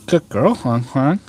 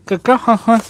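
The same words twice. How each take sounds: First: Said in the usual way. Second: High, sing-song praise for the dog; dog talk. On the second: Real, not acted. Petting the dog, cooing to her.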